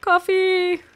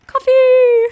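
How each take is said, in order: First: Said in the usual way. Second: Shouting the name, high and loud; loud call. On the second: Real, not acted. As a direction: yell it across the map. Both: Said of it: "repeated call, louder take".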